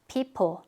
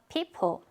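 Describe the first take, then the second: The two takes are said the same way.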